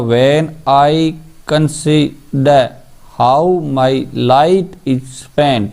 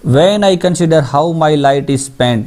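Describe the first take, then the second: First: "When I consider how my light is spent" broken into separate syllables with pauses; scansion demo. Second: Said in the usual way. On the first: Shown as a demonstration. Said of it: "इसको बोल के देख सकते हो आप". ("When I consider how my light is spent" को रुक-रुक कर, मात्रा-दर-मात्रा बोलें)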